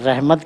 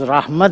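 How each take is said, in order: First: The word is pronounced the Urdu way. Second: The word is pronounced the Arabic way. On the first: "Urdu में हम रहमत कहते हैं" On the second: "अरबी में ये लफ्ज़ रहमत है"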